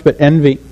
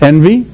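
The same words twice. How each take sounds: First: Envy landed firmly with a falling answer tune; stress on envy. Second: Rising question tune on Envy, asked to the room. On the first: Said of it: "Not jealousy so much". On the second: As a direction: let Envy lift up like a question. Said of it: "Not jealousy so much, but envy". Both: Shown as a demonstration.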